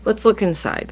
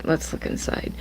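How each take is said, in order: First: Said in the usual way. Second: Breathy whispered repeat; whispering. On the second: Real, not acted. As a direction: whisper it to yourself.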